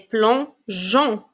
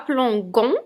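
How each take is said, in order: First: The g is a soft zh sound. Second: The g is a hard g sound. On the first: The speaker calls it right. "mais plongeon" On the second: The speaker calls it wrong. "je ne dis pas plongon"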